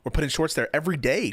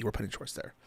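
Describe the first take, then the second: First: Said in the usual way. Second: Soft, dropped-off repeat; quiet aside. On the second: Shown as a demonstration. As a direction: say it again under your breath. Repeating plug, second time softer.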